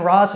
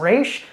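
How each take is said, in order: First: The name ends with an 's' sound. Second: The name ends with an 'sh' sound. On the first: "I kind of go between Ras and Raish" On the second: "I kind of go between Ras and Raish"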